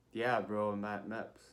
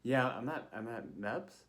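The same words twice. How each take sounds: First: Offhand reply, dropping away at the end; retold cheeky, laid-back answer; casual bro answer. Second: Halting reply with a questioning rise; retold unsure, polite answer; hesitant answer. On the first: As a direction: answer like you're talking to a buddy. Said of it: "I didn't say that". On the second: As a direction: answer the officer carefully, stumbling a little. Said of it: "but I was like".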